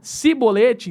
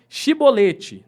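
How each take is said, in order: First: The word begins with an 's' sound. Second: The word begins with an 'sh' sound. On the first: The speaker is from the enemy group. The speaker calls it wrong. "um gileadita falava como si" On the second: The speaker is from the home group. The speaker calls it right. "Para eles devia ter som de chi"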